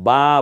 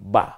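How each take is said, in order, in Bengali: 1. স্বরটি লম্বা করে টানা হয়েছে। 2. স্বরটি ছোট ও দ্রুত বলা হয়েছে। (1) "তা বা বলবেন না" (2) "বলেন বা"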